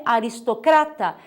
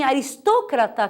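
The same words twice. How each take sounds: First: Aristocrata said a-ris-to-CRA-ta; Portuguese stress. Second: Aristócrata said a-ris-TÓ-cra-ta; Spanish stress. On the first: Teacher giving the Portuguese form, aristocrata stressed on CRA. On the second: Teacher listing Spanish words, aristócrata stressed on TÓ. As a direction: lean on TÓ in aristócrata. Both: Shown as a demonstration. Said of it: "em português é aristocrata".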